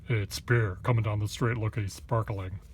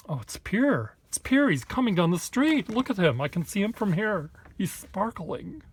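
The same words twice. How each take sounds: First: Same line at normal pitch, only lightly voiced; toned-down onlooker. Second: High, loud mock gush over a passer-by; gushing onlookers. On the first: He redoes the onlooker line less shrill, lightly voiced mock. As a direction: redo the fan line almost plain, a touch of mock. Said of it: "Why do I make him sound like that?". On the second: Onlookers in Boston spotting Pierre with a sparkly sketchbook, high, loud mocking gush. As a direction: squeal it like starstruck fans spotting someone. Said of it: "they'll say".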